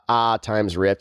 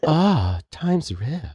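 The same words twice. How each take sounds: First: It is said in a plain, ordinary voice. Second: It is said in a put-on, sultry voice.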